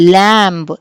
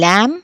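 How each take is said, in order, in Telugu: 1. చివర b శబ్దం వినిపిస్తుంది. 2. ఈ పదం m తో ముగుస్తుంది, b ఉండదు. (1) "ల్యాంబ్ అని చెప్పి పలకకూడదు" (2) "ఎం తర్వాత బి వస్తే బి మనం పలకకూడదు"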